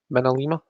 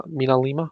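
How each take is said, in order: First: "Minalima" with short first vowel, "minna-leema". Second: "Minalima" starting "MEE-na", rising in question; long-ee Minalima. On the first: Correcting the name mid-sentence, "Minalima" as "minna-leema". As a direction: say "Minalima" starting like "minute". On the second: Trying out the name for chat, "Minalima" as "meena-leema". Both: Real, not acted. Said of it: "Am I saying that funny?".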